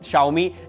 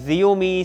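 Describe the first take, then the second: First: The name begins with a sh sound. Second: The name begins with a j sound. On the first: The speaker calls it right. "इसका असली pronunciation" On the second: The speaker calls it wrong. "जिसे लोग अब तक जियोमी"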